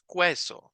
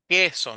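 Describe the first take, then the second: First: A 'u' sound is heard after the k. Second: The u is silent after the k. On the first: The speaker calls it wrong. "no decimos queso" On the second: The speaker calls it right. "Dicen que aquí no tiene sonido"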